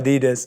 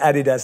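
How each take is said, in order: First: Adidas is said with an American pronunciation. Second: Adidas is said with a British London pronunciation. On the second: "As I say"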